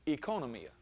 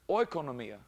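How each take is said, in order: First: The first vowel sounds like a long 'ee'. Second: The first vowel sounds like 'oy' in oil. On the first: The speaker calls it right. "The O-I is actually like a long E" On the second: The speaker calls it wrong. "the O-I, like our word oil, is not pronounced that way"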